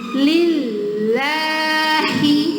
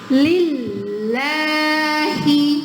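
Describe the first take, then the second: Both takes have the same delivery.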